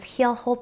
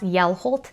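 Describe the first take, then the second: First: The word starts with an H sound. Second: The word starts with a Y sound. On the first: The speaker calls it wrong. "I think I said it was Heelholt" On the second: The speaker calls it right. "it's pronounced Yelholt. And you don't pronounce the H"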